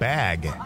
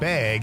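First: Bag is said with a general accent. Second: Bag is said with a Wisconsin accent. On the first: "instead of" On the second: "As Wisconsin is saying the word"

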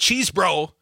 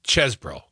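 First: The first vowel is a long 'ee' sound. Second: The first vowel is a short 'e' sound. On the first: The speaker calls it wrong. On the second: The speaker calls it right. "it's Chesbro"

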